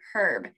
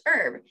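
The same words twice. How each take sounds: First: The word starts with an audible h sound. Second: The word starts with a vowel, no h. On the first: This is the usual British way. "in Great Britain, a lot of times it is pronounced with the H" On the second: This is the usual American way. "in the United States, we often pronounce it just herb"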